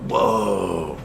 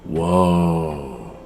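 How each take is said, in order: First: Put-on a short, falling, childlike "Whoa"; a lightly voiced child, mildly amazed; imitating a toddler's awe again. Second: Put-on a drawn-out, falling, childlike "Whoa"; a light child impression, awed and falling; imitating a toddler's awe. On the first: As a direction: voice the niece, impressed a second time. And she's like. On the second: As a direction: voice the niece's wonder at the ship. And she goes.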